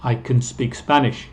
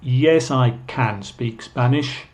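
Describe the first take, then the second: First: "can" weak and unstressed, like kun; reduced can. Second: Slow, insistent "can" in reply; emphatic can. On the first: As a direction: glide over "can" as a short kun. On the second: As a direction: stress on CAN with a full vowel. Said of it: "con énfasis diciendo". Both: Shown as a demonstration.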